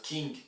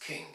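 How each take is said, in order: First: "king" said as "keeng"; tense French ee in "king". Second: "king" with a short, lax i; short vowel. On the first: Teacher repeats the mistake for students, "king" with French ee. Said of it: "It's not the French E". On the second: Teacher corrects the French vowel, "king" with short lax i. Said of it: "It's a short E. It's king". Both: Shown as a demonstration.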